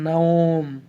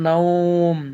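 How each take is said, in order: The two takes are said the same way.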